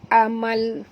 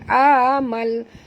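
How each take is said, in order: First: The first vowel is kept short. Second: The first vowel is drawn out long. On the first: The speaker calls it right. "Amal gitu ya" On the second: The speaker calls it wrong. "ini tak boleh panjang, ini bukan amal"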